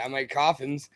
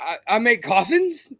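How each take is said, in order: First: The voice falls at the end, emphatic. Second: The voice rises at the end like a question.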